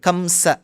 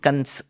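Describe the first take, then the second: First: The name ends with a final vowel sound. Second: The name ends on a consonant, no final vowel. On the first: This is the original Sanskrit form. "this kamsa shabdam is the right word" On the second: This is the form used in the north in Hindi. "in the north of India, many astikas, many bhaktas do suggest it's kans in Hindi"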